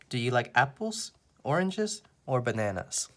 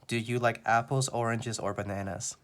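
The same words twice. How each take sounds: First: Early choices rise and the last choice falls. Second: The voice stays level with no rises or falls. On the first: "Everything except for the last one goes up" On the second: "there is no intonation. My voice does not go up or down"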